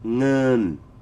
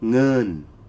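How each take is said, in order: Both takes have the same delivery.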